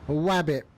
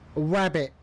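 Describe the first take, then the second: First: The word begins with a W sound instead. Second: The word begins with a clear R sound.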